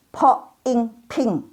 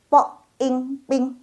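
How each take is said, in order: First: Po ing ping, puff on each p; slow po ing ping, air bursting out; aspirated p. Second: Po ing ping, no air on p; slow, level po ing ping, tight p; unaspirated p. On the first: Teacher drilling po ing ping, aspirated. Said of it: "udaranya keluar semua". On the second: Teacher drilling po ing ping, unaspirated. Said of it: "Tadi kan nggak keluar udara". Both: Shown as a demonstration.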